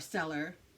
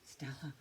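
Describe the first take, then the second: First: The word ends with a pronounced r sound. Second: The word ends without an r sound. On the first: "or Stellar" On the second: "my Boston accent"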